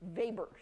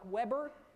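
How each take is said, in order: First: The name is said with a German pronunciation. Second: The name is said as English spelling suggests. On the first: "pronounce it as if they knew how to pronounce it in German" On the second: "spelled like Weber"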